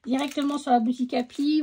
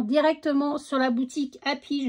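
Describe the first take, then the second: First: Repeated faster for emphasis; quick repeat. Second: Said in the usual way. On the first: Shown as a demonstration. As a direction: say it again quickly to insist. (répété plus vite pour insister) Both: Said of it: "je le répète".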